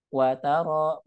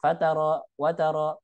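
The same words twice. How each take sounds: First: Wa alone, long taro; separated words. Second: Fataro, wataro as short single words; run together. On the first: Teacher showing wa split from taro, separated words. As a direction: say "Wataro" slowly as wa, then taro. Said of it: "wa sendiri, taro sendiri". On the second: Teacher showing the wrong readings, run together. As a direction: say "fataro, wataro" joined, no inner gap. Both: Shown as a demonstration.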